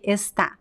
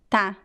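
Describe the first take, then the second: First: The word is said with both syllables. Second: The word is shortened to one syllable. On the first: "She does not say está. Nobody speaks like that in Brazil" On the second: "she says tá"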